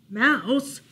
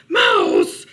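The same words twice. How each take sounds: First: Uncertain rising "Mouse?"; nervous questioning. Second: High, very loud shout; alarmed cry. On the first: Bear checking whether it is Mouse, nervous question. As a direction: ask warily, voice lifting. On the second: Bear frightened by rustling, shouting for Mouse. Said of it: "he cried". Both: A narrator's reading.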